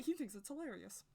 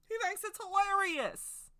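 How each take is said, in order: First: Said in the usual way. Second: Higher, louder and slower, stressing HE; loud, slow insistent repeat; emphatic repeat. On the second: Shown as a demonstration. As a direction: say it again with big emphasis, drawn out. Repeats line, second louder.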